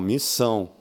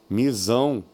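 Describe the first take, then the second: First: The middle consonant is a hissing S sound. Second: The middle consonant is a buzzing Z sound. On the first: The speaker calls it right. "Não" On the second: The speaker calls it wrong. "Um S só"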